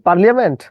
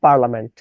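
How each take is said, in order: First: পার্লিয়ামেন্ট with an extra "lia" syllable; wrong pronunciation. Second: পার্লামেন্ট with a simple "la" in the middle; proper pronunciation. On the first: Teacher questioning whether the word is said so, spelling pronunciation. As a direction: sound the i and a in পার্লিয়ামেন্ট. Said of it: "এই তথ্যটার উচ্চারণ কি পার্লিয়ামেন্ট?". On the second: Teacher giving the appropriate pronunciation, standard. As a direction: say পার্লামেন্ট in three syllables, no "lia". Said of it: "appropriate উচ্চারণ কিন্তু পার্লামেন্ট". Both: Shown as a demonstration.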